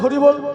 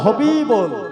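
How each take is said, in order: First: The word is said clearly with a full r sound. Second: Air leaks and the r comes out like b. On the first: The speaker still has teeth. "দেখুন এখন বলা যাচ্ছে হরিবোল" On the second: The speaker has lost their teeth. "ফাঁকা দাঁতে হাওয়া leak করে আর হরি বলা হবে না, সেদিন উচ্চারণ হবে হবিবোল"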